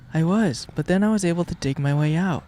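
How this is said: It is said in a put-on Yin character voice.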